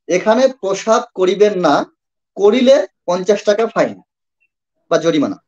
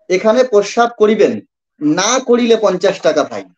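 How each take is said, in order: First: The pause comes after "না". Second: The pause comes before "না".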